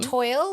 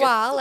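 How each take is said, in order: First: It rhymes with the English word 'oil'. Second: It sounds like 'twahl', with a French vowel. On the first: The speaker calls it wrong. "I'm just reading it as it's spelt" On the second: The speaker calls it right. "as it's meant to be pronounced"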